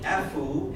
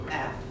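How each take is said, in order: First: An extra vowel sound follows the final F. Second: The letter ends cleanly on the F sound. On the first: The speaker calls it wrong. "if you say Efu instead of F" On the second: The speaker calls it right. "instead of F"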